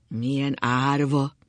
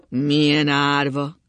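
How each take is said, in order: First: Slow, drawn-out pitying words; slow murmured lament. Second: Loud, slow, sustained moan; louder lament.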